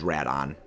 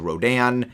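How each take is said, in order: First: The name is said the Japanese way. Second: The name is said the Western way. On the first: This is the original Japanese name. "the original Japanese, which is Radon" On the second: This is the name used in the West. "There is the West, which is Rodan"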